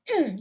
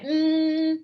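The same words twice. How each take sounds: First: The pitch drops sharply from high to low. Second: The pitch stays high and level. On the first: "that's the fourth tone. Drop down. It's like you're angry" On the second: "that's first tone"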